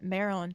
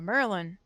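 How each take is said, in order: First: It is said in a standard general accent. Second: It is said in a local Baltimore accent.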